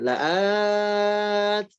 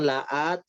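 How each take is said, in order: First: The vowel is held long. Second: The vowel is cut short. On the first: The speaker calls it right. "la'at di sini panjangkan" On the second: The speaker calls it wrong. "jangan la'at, jangan kependekan"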